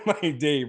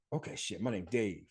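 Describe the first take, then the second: First: Says it again through a laugh; laughing repeat. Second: Hushed, low, to himself; half under his breath, deciding on the name; muttered realization. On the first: Real, not acted. Laughing to the listener about his bus-sign alias. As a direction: chuckle at his own alias. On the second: Retold or imitated. Seeing the bus sign, he quietly names himself. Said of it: "And I was like".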